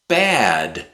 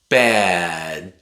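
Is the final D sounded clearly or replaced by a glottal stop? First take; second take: clear D; glottal stop. First: The final D is pronounced clearly. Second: The final D becomes a glottal stop. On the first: "if you pronounce the D, that's okay" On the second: "sometimes we replace the D at the end with a glottal stop"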